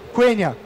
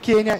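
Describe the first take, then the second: First: A 'w' sound follows the initial K. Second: The initial K has no following 'w'. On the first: The speaker calls it right. "o U é sempre pronunciado" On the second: The speaker calls it wrong. "não Quenya"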